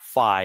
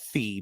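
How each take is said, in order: First: The vowel sounds like 'eye'. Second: The vowel sounds like 'ee'. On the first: The speaker calls it wrong. "It's it's not Fi" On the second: The speaker calls it right. "it's it's Fee, because F I is short for Fiona"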